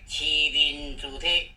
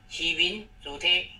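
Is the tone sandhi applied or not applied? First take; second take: applied; not applied. First: The syllables take their sandhi tones. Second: The syllables keep their citation tones. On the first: The speaker calls it right. "这个变调的关系" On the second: The speaker calls it wrong. "这个不对"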